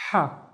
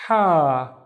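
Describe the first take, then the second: First: Said in the usual way. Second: "ha" held twice as long; breathed h, then a long "aa" in "ha"; long vowel. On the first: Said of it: "alif making the ha twice as long". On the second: Shown as a demonstration. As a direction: stretch the vowel of "ha" right out. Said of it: "making the ha twice as long".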